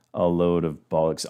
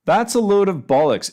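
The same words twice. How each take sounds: First: Said in the usual way. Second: Higher, louder British-flavoured "bollocks"; British expression. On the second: Shown as a demonstration. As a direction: punch it out like a Brit. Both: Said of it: "entirely British".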